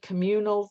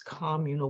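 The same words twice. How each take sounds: First: It is said the standard, non-local way. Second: It is said the local neighborhood way. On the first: The speaker is an outsider to the neighborhood. The speaker calls it wrong. "if you said communal, they always corrected you" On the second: The speaker talks like a neighborhood local. The speaker calls it right. "that's how Southsiders pronounce it"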